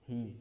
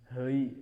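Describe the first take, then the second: First: The vowel goes straight to a steady i. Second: The vowel glides toward an ei sound. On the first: The speaker calls it right. "tapi hi langsung hi" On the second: The speaker calls it wrong. "tidak ada ke hei"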